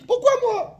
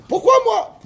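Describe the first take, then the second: First: High-pitched mock whine; the second son whining; sulky child's why me; whiny kid. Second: Put-on high whining child's complaint; mock child whining why me; whiny kid. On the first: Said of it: "Le deuxième, il a dit". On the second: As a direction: whine it like a sulky son. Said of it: "Qu'est-ce qu'il a dit le, le fils?".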